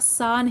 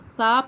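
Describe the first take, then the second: First: The consonant is a sharp, hissing s sound. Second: The consonant is a soft th sound without hissing. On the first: The speaker calls it wrong. "सा नहीं पढ़ना" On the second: The speaker calls it right. "सा पढ़ना"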